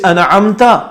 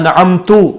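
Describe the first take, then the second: First: The word ends with a short 'a' vowel. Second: The word ends with a short 'u' vowel. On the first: You bestowed favor. The speaker calls it right. "तूने इनाम किया" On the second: I bestowed favor. The speaker calls it wrong. "ज़बर की जगह पेश पढ़ दिया"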